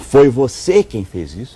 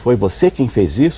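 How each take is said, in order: First: It sounds like a sharp, accusing question. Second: It sounds like a neutral, genuine question. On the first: The speaker is blaming the listener. "Eu estou acusando" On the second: The speaker simply wants to know. "Estou perguntando"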